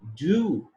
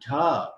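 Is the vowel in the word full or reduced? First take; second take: full; reduced. First: The word has a full, clear vowel. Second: The word has a short, reduced vowel.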